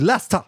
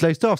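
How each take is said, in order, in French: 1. Le nom se dit à l'anglaise, raccourci comme Lester. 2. Le nom se lit à la française, lettre par lettre. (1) "ça se dit Leicester" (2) "vous dites Leicester"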